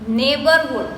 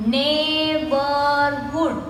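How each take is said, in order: First: Said in the usual way. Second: Slowly broken up. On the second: Shown as a demonstration. Teacher counting three syllables, "Neighborhood" slowly broken up. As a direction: stretch each syllable of "Neighborhood". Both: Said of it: "we say it slowly and we break the word".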